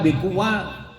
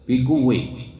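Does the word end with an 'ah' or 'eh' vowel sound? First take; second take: ah; eh. First: The final vowel is an open 'a' sound. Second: The final vowel is tilted toward an 'e' sound.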